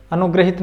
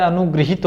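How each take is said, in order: First: अनुग्रहित said as a-nu-gra-hit, with a plain "ra"; wrong spelling said aloud. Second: अनुगृहित said as a-nu-gri-hit, with a "ri" sound; correct spelling said aloud. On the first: Hindi teacher showing students the wrong form, said a-nu-gra-hit. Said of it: "नहीं होता है". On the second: Hindi teacher giving students the correct form, said a-nu-gri-hit. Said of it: "होता है". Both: Shown as a demonstration.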